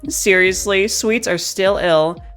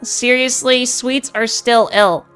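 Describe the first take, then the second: First: The voice sits in a low feminine range. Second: The voice is as bright as possible. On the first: "Starting in the lower range" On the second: "speaking in the highest brightness that I can"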